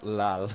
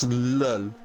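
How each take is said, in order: First: The vowel sounds like the vowel in 'lal'. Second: The vowel sounds like the vowel in 'lull'. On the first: The speaker calls it wrong. "not lal" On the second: The speaker calls it right. "it's lull"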